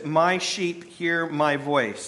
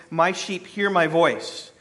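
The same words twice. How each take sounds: First: Slow, weighty, with stress on every word; solemn scripture reading. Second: Slow, with the stress on hear; slow repeated title. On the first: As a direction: read it slowly, as a verse that matters. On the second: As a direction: repeat the title slowly and firmly. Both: Shown as a demonstration. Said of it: "That is the title of my message".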